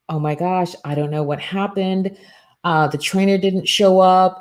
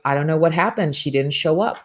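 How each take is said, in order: First: Lightly voiced panicked assistant, a touch higher; a hint of worried rush; mock panic. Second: Said in the usual way. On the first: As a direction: imitate a flustered assistant, mildly hammed-up. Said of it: "freaking out".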